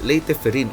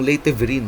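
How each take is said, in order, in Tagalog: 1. Nagsisimula ang pangalawang salita sa tunog na F. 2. Nagsisimula ang pangalawang salita sa tunog na V. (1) "Leyte Ferrin ang pronunciation na" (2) "wag yung Leyte Ferrin"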